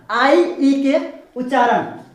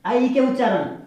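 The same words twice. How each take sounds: First: Drawn out slowly, आई stretched long and stressed; slow emphatic demo. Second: Said in the usual way. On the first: Shown as a demonstration. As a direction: say आई ई के उच्चारण slowly, leaning hard on आई. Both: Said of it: "अब यहाँ पे आ रहा है वही उच्चारण".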